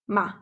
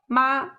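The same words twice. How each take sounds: First: The syllable is short and light, without tone. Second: The syllable has a high, level, sustained tone. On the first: "the second syllable is using the neutral tone. ... Short and light" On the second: "The first one is using the first tone"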